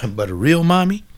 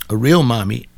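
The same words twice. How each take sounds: First: A real mommy pitched high and rising on mommy; emphatic real mommy. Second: Real punched loud on a level pitch; stress on real. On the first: Preacher to listeners, raised high and insistent. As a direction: lift the line up high, pressing the point. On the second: Preacher to listeners, pounding the word real. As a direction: hit the word real hard. Repeats the phrase with more weight. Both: Real, not acted.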